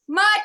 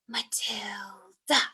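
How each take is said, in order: First: The name is shouted. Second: The name is whispered.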